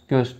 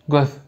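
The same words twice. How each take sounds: First: The word is said with Turkish pronunciation. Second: The word is said with Turkmen pronunciation. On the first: "Türkçe" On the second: "Türkmen"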